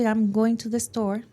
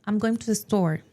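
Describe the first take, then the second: First: All words get roughly even stress and timing. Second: The word store is stressed and lengthened. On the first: "si yo quisiera decir" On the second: "un nativo lo diría ... hace el acento en la palabra store"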